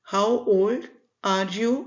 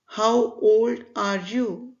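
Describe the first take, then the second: No difference in how they are said.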